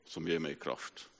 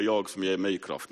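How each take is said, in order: First: Ger mig kraft said slow and much softer; the right version, slowed and hushed; correct quote. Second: Jag stressed as the wrong reading, slow and firm; the wrong version, jag as the source of strength; misquote stress on jag. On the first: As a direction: hand over the true verse gently, stressing ger. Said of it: "Nej, så allt förmår jag i honom". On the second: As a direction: lean on jag to show the misquote. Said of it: "Det står inte att". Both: Shown as a demonstration.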